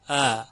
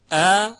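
First: Loose, gentle onset on ا; eased hamza. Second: ا with a firm, sharp glottal attack; crisp, strong hamza on ا; full hard hamza. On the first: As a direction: let ا flow in slackly like a plain vowel. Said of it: "صدای دوم صدای نرم و روان". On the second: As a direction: hit ا loud and high with a hard catch. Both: Shown as a demonstration.

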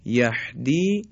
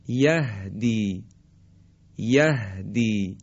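First: یهدی with a tight, ح-like h, too close to ح; wrong throaty h. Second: یهدی slow, with a light, airy h; open breathy h. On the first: Teacher demonstrating a wrong, throaty ه. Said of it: "این صحیح نیست". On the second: Teacher modelling the correct light ه. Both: Shown as a demonstration.

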